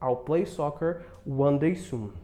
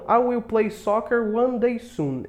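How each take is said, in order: First: The words 'I will' are contracted to 'I'll'. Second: The words 'I will' are said in full.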